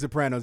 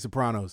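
First: The name has a plain American pronunciation. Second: The name has an Italian-style pronunciation. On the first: The speaker calls it wrong. "you don't say Sopranos" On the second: The speaker calls it right. "You say Sopranos"

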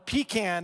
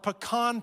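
First: It is said with a Southern pronunciation. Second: It is said with a non-Southern pronunciation.

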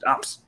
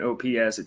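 First: It is said as one short single-syllable word. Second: It is spelled out as three separate letters.

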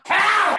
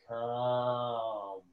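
First: It is said in an agitated, hurried voice. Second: It is said in a slow, soothing voice.

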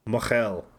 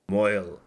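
First: The word is two syllables with a throaty middle. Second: The word is one syllable rhyming with 'boil'.

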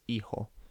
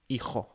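First: The middle consonant is a soft h sound. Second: The middle consonant is a harsh throaty sound. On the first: This is the Latin American pronunciation. "the J sound is just like an English H sound, so it's not sort of doesn't make a large noise" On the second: This is the pronunciation used in Spain. "with a sort of much more throaty J sound"

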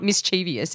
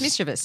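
First: An extra 'ee' sound follows the v. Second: No extra sound follows the v. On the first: The speaker calls it wrong. "It's not mischievous" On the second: The speaker calls it right. "There's no I after the V"

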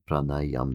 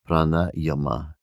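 First: The word ends on 'm' without a vowel. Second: The word ends with a final 'a' vowel. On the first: The speaker calls it right. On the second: The speaker calls it wrong.

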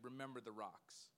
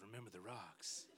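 First: It is said in a normal, clear voice. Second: It is said in a low, sultry voice.

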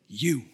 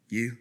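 First: It is said forcefully, with strong emphasis. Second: It is said weakly, without emphasis.

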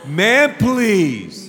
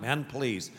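First: It is said with soulful, expressive feeling. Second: It is said flatly, without expressive feeling. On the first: The speaker calls it right. "I'll say it with some soul" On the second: The speaker calls it wrong. "Not man, please"

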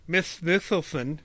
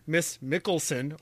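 First: The name is pronounced with a childish lisp. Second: The name is pronounced clearly, without a lisp. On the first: This is how a child missing teeth said it. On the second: This is how an adult says it.

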